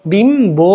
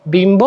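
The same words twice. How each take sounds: First: বিম্ব stretched as "bim... bo"; split syllables. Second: Said in the usual way. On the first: Shown as a demonstration. Teacher showing how it is pronounced, stretched বিম্ব. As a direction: draw out both syllables of বিম্ব, b clear. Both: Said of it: "এভাবে উচ্চারণ".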